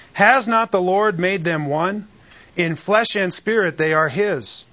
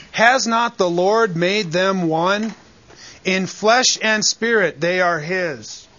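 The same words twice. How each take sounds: First: Said in the usual way. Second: "Has not the Lord made them one" slow, leaning on "Has" and "Lord"; slow down and stress "Has" and "flesh" to drive home God's sovereignty; emphatic, slow reading. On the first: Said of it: "Notice the emphasis". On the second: Shown as a demonstration. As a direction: pastor slowly stresses the verse for his congregation. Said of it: "Notice the emphasis on God's sovereignty here".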